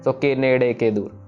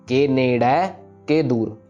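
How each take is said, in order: First: The second word ends in an 'e' vowel. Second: The second word ends in an 'a' vowel. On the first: The speaker calls it wrong. "हम नेड़े कह पढ़ते हैं इसको" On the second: The speaker calls it right. "सो नेड़ा कहना है इसको"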